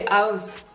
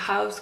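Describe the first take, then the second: First: The word is pronounced with a French accent. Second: The word is pronounced with an English accent. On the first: The speaker calls it wrong. "en français on dit house" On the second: The speaker calls it right. "c'est house quand même"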